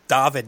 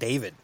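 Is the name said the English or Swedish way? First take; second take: Swedish; English. First: The name is said the Swedish way. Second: The name is said the English way. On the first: The speaker calls it right. "the correct pronunciation of your name" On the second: The speaker calls it wrong. "not David"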